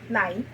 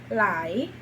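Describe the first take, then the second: First: The word is said with a mid tone. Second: The word is said with a rising tone. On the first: "um tom médio" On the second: "torna-se uma palavra de tom ascendente"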